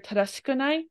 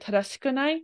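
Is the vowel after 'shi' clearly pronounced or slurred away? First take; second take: slurred; slurred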